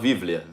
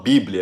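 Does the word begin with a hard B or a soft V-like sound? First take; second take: V-like; hard B. First: The word begins with a soft V-like sound. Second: The word begins with a hard B sound. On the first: "eles falam Bíblia" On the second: "eles não falam Bíblia"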